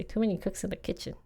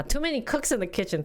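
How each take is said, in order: First: Softer, quick repeat to herself; muttered to self. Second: Found the phrase. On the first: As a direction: say "Too many cooks in the kitchen" quietly and fast, under the breath. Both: Real, not acted. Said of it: "That's what I wanted to say".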